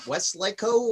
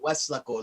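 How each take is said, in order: First: The middle part sounds like the word lake. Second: The middle part does not sound like lake. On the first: The speaker calls it wrong. "People every time they're like Westlaco, what the fuck is that? Where's there the lake?" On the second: The speaker calls it right. "no, Westlaco, like that's it's there's no lake. It's just that's just how you pronounce it"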